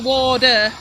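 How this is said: The middle consonant is a soft D sound. "T's to D's, and water to water"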